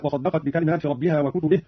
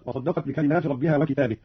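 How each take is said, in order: First: Said in the usual way. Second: وكتابه said "wa-kitābih", long ā; singular form. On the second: Shown as a demonstration. Teacher demonstrating Qalun, وكتابه as singular "kitābih". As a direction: stretch the ā in وكتابه after a short i. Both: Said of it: "قرأ قانون بالإفراد".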